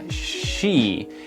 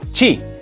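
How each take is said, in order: First: It starts with a soft hushing 'sh' sound. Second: It starts with a harder, sharper 'ch' sound. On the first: The speaker calls it right. "es como si estuviéramos callando a una persona haciendo shh" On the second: The speaker calls it wrong. "suelen decir chi, un poco más golpeado"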